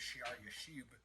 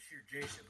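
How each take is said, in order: First: The name is said with Hebrew pronunciation. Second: The name is said with anglicized pronunciation. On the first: The speaker calls it right. "His name pronounced in, in Hebrew or whatever" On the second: The speaker calls it wrong. "which I've been saying"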